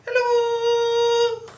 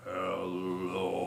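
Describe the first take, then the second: First: Squeaky high-pitched hello, far up. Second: Deep, soft rumbling hello; very low hello. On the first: Librarian leading kids, hello as high as can be. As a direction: reach as high as your voice goes. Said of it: "Let's say hello as high as we can". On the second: Librarian leading kids, hello as low as can be. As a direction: drop to the bottom of your voice. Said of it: "Let's say hello as low as we can". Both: Shown as a demonstration.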